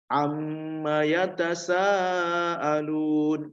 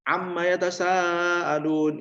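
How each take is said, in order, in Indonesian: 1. Huruf m-nya sengau, ditahan dua harokat, lalu ada jeda. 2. Huruf m-nya pendek, tanpa jeda setelahnya. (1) "Ada jeda dulu, dua harokat. Dua harokat itu sudah pas" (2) "Jangan amma yatasaalun, itu salah ya"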